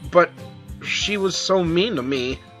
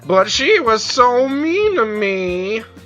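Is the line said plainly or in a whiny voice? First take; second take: plainly; whiny. First: It is said in a plain, normal voice. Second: It is said in a whining, complaining voice.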